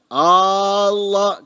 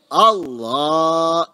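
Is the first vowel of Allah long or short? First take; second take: long; short. First: The first vowel is drawn out long. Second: The first vowel is short. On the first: It turns the phrase into a question. The speaker calls it wrong. "hamzanya tidak boleh dipanjangkan. Gak boleh dipanjangkan. Allah keliru" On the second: It is a firm statement. The speaker calls it right. "lamnya yang panjang"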